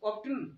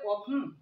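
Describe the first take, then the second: First: The t sound is pronounced in the middle. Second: The t sound is left out entirely. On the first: The speaker calls it wrong. "এভাবে যেন না হয়ে যায়" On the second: The speaker calls it right. "উচ্চারণ করা হয় না"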